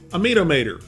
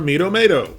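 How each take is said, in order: First: It is said in a Southern accent. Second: It is said in a general accent.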